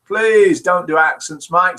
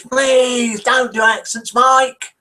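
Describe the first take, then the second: First: Said in the usual way. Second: High, drawn-out mock plea; Viv Huff impression. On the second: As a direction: imitate a listener's protest, slow and high-pitched. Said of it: "That's how she said it".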